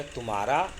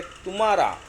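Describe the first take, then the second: First: Said in the usual way. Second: तुम्हारा with a heavy, louder push on तु; stress on first syllable. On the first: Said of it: "तुम्हारा में तू पे बलाघात कम है". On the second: Shown as a demonstration. Teacher showing students the stressed word, तुम्हारा with weight on तु. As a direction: lean hard on the तुम् of तुम्हारा, pitch falling away at the end. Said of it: "तू पे बलाघात अधिक है".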